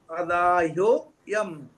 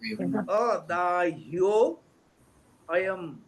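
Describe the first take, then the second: First: The words are read quickly and run together. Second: The words are read slowly and kept apart.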